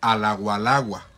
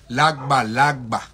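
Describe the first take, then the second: First: The consonant is pronounced as a w sound. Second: The consonant is pronounced as a gb sound. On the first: The speaker calls it wrong. "en Cuba todavía dicen la gualagua" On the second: The speaker calls it right. "tiene una pronunciación con la G y la B"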